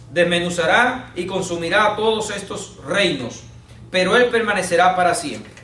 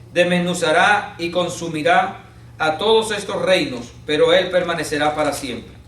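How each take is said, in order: No difference in how they are said.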